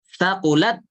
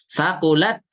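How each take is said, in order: The two takes are said the same way.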